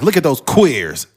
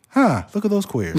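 First: It sounds angry and hostile. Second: It sounds calm and not hostile.

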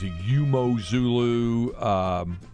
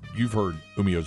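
First: The second syllable is a single 'moh' sound. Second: The second syllable is a 'mee-ah' sound. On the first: This is a version others have used. The speaker calls it wrong. "You may have heard other things" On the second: This is the version that was passed on to them. The speaker calls it right. "That's how it's pronounced"

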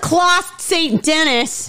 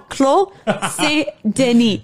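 First: The name is said with an anglicized pronunciation. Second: The name is said with a French pronunciation. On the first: The speaker calls it wrong. "I'm going to butcher it on purpose" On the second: The speaker calls it right. "I'm just kidding"

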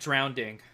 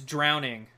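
First: The word has an extra d sound before -ing. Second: The word has no d sound before -ing. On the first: The speaker calls it wrong. "not drowning. ... No second D" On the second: The speaker calls it right. "It's drowning"

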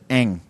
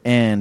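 First: The word ends with an ng sound. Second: The word ends with a d sound. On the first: "he says ang" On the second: "the word and"

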